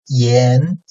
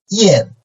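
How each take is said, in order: First: The pitch rises from mid to high. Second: The pitch falls sharply from high to low.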